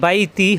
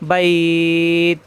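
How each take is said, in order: First: The word ends with a short i vowel. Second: The ai is stretched and it ends on t. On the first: The reciter continues without stopping. "যদি না থামি পড়ে যাই তাহলে বাইতি হবে" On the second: The reciter stops at the end of the verse. "থামলে বাইত ... থামার জায়গায় দুই আলিফ টান"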